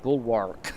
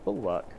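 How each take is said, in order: First: The L sound is heavy and drawn out. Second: The L sound is light and not stressed. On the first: "I always try to put a really heavy L at the end" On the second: "Is that how you say it?"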